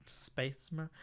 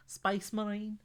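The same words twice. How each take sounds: First: Said in the usual way. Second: A quick try at a Scouse accent. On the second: Shown as a demonstration. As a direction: Space Marine in a lightly done Scouse accent, pitched up. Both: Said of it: "How would you say Space Marine in a Scouse accent".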